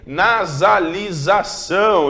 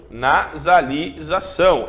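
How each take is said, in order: First: Nasalização stretched slowly; slow drawn word. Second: Nasalização stretched out again slowly; slow drawn word. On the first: Teacher to class, drawing Nasalização out slowly. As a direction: draw out Nasalização. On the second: Teacher repeating Nasalização slowly for students. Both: Shown as a demonstration.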